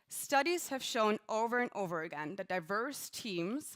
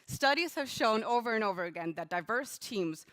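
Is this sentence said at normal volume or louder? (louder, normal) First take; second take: normal; louder. First: It is said at a normal speaking volume. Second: It is said noticeably louder than before.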